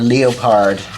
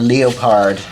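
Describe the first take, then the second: First: It is said with a put-on French pronunciation. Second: It is said with a put-on French pronunciation.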